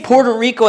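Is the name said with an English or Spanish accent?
English. The name is said with a plain English accent. The speaker calls it right. "just say Puerto Rico at that point"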